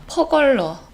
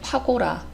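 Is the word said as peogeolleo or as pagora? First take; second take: peogeolleo; pagora. First: The word is said as peogeolleo. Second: The word is said as pagora.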